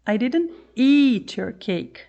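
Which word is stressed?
eat. The word "eat" carries the main stress. Something else was done to the cake. "I didn't eat your cake, I just threw it away"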